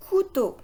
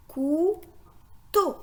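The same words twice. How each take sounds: First: Said in the usual way. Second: Couteau as cou, pause, teau, each apart; split into syllables. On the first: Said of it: "Le mot". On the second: Shown as a demonstration. Teacher shows two syllables, couteau split cou - teau. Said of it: "la syllabe cou et la syllabe".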